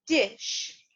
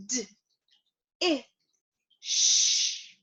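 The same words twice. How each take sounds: First: Said in the usual way. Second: "D, I, sh" as three isolated phonemes, not letter names; sounded out. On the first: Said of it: "bring it back together and say it together". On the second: Shown as a demonstration. Teacher leading learners through a new word, sounded out. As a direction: break "dish" apart slowly with pauses, holding the sh. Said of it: "Let's sound it out one more time".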